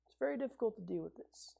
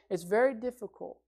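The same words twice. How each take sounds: First: Much softer and faster, tossed off; a quick soft aside; weary murmur. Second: Said in the usual way. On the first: Retold or imitated. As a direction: mutter it under your breath. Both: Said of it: "We say".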